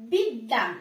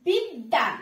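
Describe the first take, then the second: No difference in how they are said.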